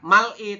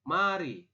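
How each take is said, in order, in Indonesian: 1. Bunyi l mengakhiri suku kata pertama. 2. Bunyi r memulai suku kata kedua. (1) "bukan mal-i" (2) "tapi mari"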